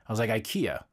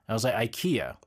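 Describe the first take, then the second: The two takes are said the same way.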